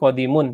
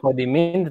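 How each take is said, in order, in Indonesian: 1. Kata ini berakhir dengan bunyi -un. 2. Kata ini berakhir dengan bunyi -in. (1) "tetapi kodimun ya" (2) "tidak dibaca kodimin"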